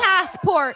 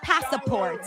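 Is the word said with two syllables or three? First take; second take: two; three. First: It is said without an extra middle vowel. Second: An extra vowel is added in the middle. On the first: This is the correct pronunciation. The speaker calls it right. "no, it's" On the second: This is how other people mispronounce it. The speaker calls it wrong. "They always say"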